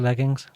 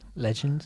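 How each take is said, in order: First: The word is said in a plain native way. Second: The word is said like "legends" in an accent.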